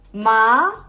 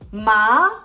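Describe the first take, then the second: First: The pitch rises toward the end. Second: The same.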